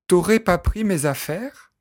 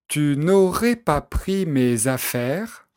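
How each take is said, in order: First: Tu is shortened to t' and ne is dropped. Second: Tu is full and ne is pronounced. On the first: This is casual everyday speech. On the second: This is the standard form.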